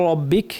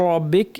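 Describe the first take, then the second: No difference in how they are said.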